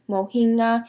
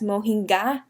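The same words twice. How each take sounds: First: No g sound is pronounced in the middle. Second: A clear g sound is pronounced in the middle. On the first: The speaker calls it right. "The G is silent" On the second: The speaker calls it wrong. "with the G uh, like noticeably emphasized"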